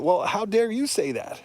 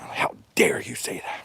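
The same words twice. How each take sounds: First: Higher, pointed comeback; indignant retort. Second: Hushed, voiceless mock outrage; mock outraged whisper. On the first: Real, not acted. Turning critics' own words back on them, indignant and raised. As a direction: fire the question back at them. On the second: Mocking critics who get mad at the truth, in a breathy whisper. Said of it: "people get mad at you for saying that".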